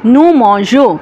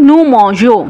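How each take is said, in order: Both takes have the same delivery.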